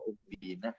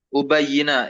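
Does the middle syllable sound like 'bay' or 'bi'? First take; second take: bi; bay. First: The middle syllable is a short plain 'bi'. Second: The middle syllable is 'bay' with a doubled y. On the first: The speaker calls it wrong. "kok ubina?" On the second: The speaker calls it right. "Ubayyina yang betul"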